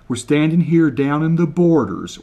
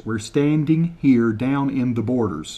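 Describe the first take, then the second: First: Said in the usual way. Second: Slower, carefully spaced words; slow translation. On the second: Shown as a demonstration. Repeating Kevin's line for viewers, slowed down. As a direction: say it again slowly so they get it. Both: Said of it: "translate word for word".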